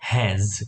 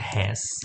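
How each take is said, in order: First: The word ends with a z sound. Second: The word ends with an s sound. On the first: The speaker calls it right. "એને ઝ તરીકે વાંચવાનું છે" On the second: The speaker calls it wrong. "આમ તો હેસ"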